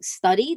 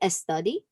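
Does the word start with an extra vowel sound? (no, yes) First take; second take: no; yes. First: It starts directly with the s sound. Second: An extra vowel comes before the s sound. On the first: "instead of saying study" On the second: "they'll add that E in the beginning"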